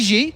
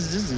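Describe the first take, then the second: First: The name begins with a j-like sound. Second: The name begins with a z sound. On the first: The speaker calls it wrong. "Would you pronounce that G?" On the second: The speaker calls it right. "I think Z is closer"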